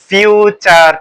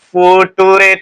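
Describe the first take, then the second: First: It is said smoothly as 'fyoo-cher'. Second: It is read letter by letter as 'foo-too-ray'. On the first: The speaker calls it right. "সঠিক উচ্চারণটা হচ্ছে ফিউচার tense" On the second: The speaker calls it wrong. "ফুটুরে tense পড়তে যেও না"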